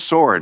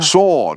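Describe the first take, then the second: First: It is said in an American accent. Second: It is said in an English accent. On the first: "Brad Pitt says sword, like I do" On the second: "English accent"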